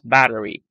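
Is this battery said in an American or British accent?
American. It is said with an American accent. "the American accent is battery"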